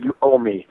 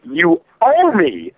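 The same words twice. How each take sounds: First: Said in the usual way. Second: Slow emphatic repeat. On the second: Acted. Telling NetherRealm directly, slow and drawn-out insistence. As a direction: drag out each word, heavy and deliberate.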